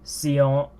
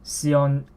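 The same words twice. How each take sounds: No difference in how they are said.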